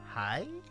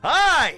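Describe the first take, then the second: First: The greeting sounds timid and unsure. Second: The greeting sounds outgoing and friendly.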